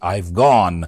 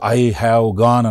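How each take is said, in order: First: Have is contracted to I've. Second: Have is said in full.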